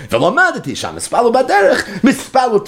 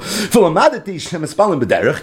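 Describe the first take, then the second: First: Higher, with a laugh in it; amused, higher restatement; laughing repeat. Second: Said in the usual way. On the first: Shown as a demonstration. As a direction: say it again, laughing at the point.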